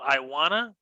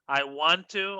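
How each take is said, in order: First: The words blend into a short reduced form. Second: Both words are said fully and separately.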